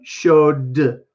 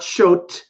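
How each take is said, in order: First: The word ends with a voiced d sound. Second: The word ends with a voiceless t sound. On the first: The speaker calls it right. "I'm actually going to use d as a sound" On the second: The speaker calls it wrong. "not showt"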